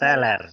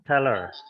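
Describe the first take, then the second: First: It is said like the Indonesian word. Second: It is said as the English word. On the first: It means being drunk. The speaker calls it wrong. "bukan teller. kalau teller mabok dong kamu" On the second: It names a bank cashier. The speaker calls it right. "Teller ya, teller"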